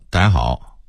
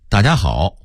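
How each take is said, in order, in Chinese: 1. 音节连在一起快速带过，变得含混不清。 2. 每个音节都清楚、完整地发出来。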